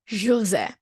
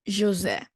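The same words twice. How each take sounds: The two takes are said the same way.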